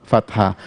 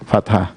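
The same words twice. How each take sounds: No difference in how they are said.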